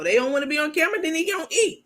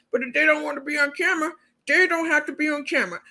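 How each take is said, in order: First: Her harsher later version, higher and blunt; mild mocking of the blunt threat; higher mock cold host. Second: Higher and faster, imitating her fake-reasonable promise; lightly voiced, quick, sweet-talking host; high, fast mock reasonable host. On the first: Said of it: "I showed you the new video". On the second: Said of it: "She told us last week".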